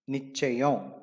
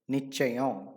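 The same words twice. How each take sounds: Both takes have the same delivery.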